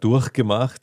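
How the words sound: The ch in 'durch' is a hard, throaty rasp. This is how Austrians say it. "dieses harte, das dürfte was sehr Österreichisches sein"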